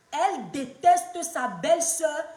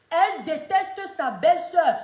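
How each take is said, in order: Both takes have the same delivery.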